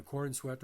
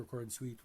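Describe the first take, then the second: First: "Corn Sweat", short vowel as in "wet"; "Sweat" pronunciation. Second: "Corn Sweet", long vowel as in "feet"; "Sweet" pronunciation. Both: Shown as a demonstration. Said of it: "whatever you wanna pronounce it".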